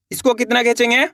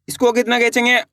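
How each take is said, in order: Both takes have the same delivery.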